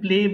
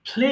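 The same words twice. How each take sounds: First: The p is plain, without a puff of air. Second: The p has a strong puff of air. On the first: The speaker calls it wrong. "আমরা এতদিন প্লে বলতাম" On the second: The speaker calls it right. "এটাকে অবশ্যই ফ দিয়ে উচ্চারণ করবেন"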